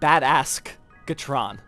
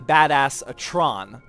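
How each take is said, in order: First: A hard g sound comes before 'tron'. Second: A plain vowel comes before 'tron', no g sound. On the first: This is how a child mishears the name. The speaker calls it wrong. "my five-year-old thinks that there's a K in there" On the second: This is how the film says the name. The speaker calls it right. "In the movie, they say badass a Tron"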